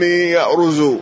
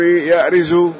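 First: The r is followed by a u vowel. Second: The r is followed by an i vowel. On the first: "وإما بالضم" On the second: "إما بالكسر"

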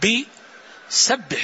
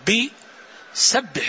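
First: A short pause separates 'bi' from 'sabbih'. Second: A short pause separates 'bi' from 'sabbih'.

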